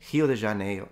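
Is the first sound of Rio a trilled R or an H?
H. Rio begins with a breathy H sound. "It sounded like an aspirated H to me"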